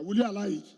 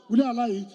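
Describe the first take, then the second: First: Said in the usual way. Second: Louder, demanding "you"; calling out to crowd. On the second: Real, not acted. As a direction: push the crowd for an answer. Asking crowd again, louder.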